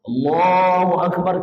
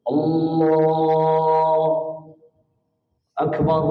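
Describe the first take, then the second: First: It is said smoothly without a break. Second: It is said with a break in the middle.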